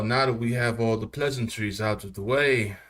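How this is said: It is spoken in a British accent. The speaker calls it wrong.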